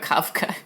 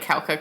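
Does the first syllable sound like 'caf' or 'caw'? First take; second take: caf; caw. First: The first syllable sounds like 'caf'. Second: The first syllable sounds like 'caw'. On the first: The speaker calls it right. "not Kauka, Kafka" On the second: The speaker calls it wrong. "I read it with English in my brain"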